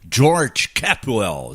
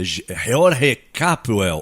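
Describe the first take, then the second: First: The name is said with English pronunciation. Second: The name is said with non-English pronunciation.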